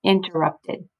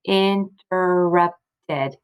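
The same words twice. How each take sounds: First: Said in the usual way. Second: "Interrupted" slowly as "in, ter, rup, ted"; "Interrupted" in four even, separated beats; split into syllables. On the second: Shown as a demonstration. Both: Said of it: "We have a closed syllable".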